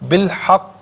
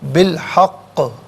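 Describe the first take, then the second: First: The final q stops dead with no echo. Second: The final q has a slight echoing bounce. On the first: The speaker calls it wrong. "बिलहक नहीं" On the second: The speaker calls it right. "थोड़ी सी जुम्बिश होनी चाहिए, आवाज़ लौटती भी महसूस होनी चाहिए"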